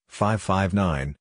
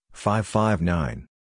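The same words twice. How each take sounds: The two takes are said the same way.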